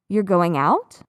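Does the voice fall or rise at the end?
rise. The pitch rises sharply at the end. It is a question. "I lift the pitch very sharply at the end of the sentence"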